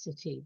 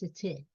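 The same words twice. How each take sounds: First: It is said in an American accent. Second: It is said in a non-American accent. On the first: "Americans say it's city" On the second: "but it's city"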